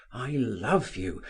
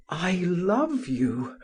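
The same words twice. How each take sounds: First: Said in the usual way. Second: Slow, drawn-out "I love you" with weight on "love"; a lover's ardent, lingering "I love you"; passionate declaration. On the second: A narrator's reading. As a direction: lean hard and slow into "love". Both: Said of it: "kissing it passionately, said".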